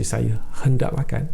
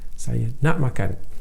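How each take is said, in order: First: The word for want is said in full. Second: The word for want is shortened to nak. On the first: "you don't say saya hendak makan" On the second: "say saya nak makan"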